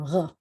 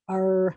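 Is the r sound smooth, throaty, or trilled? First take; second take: throaty; smooth. First: The r is made far back in the throat. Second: The r is a smooth sound without vibration. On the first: This is how most people actually say it. "what I call a French R" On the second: This is how most Americans say it. "most Americans, they say the letter R like that"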